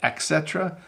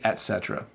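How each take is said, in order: First: The first word has an 'x' sound. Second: The first word has a plain 't' sound. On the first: The speaker calls it wrong. "Some people say et cetera" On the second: The speaker calls it right. "but it's actually et cetera"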